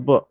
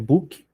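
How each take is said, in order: First: The word ends cleanly on the consonant. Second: The word ends with an added vowel sound. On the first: The speaker calls it right. "Então, olha só, reading a book" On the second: The speaker calls it wrong. "não é book, os brasileiros têm mania de colocar Y assim, onde não tem"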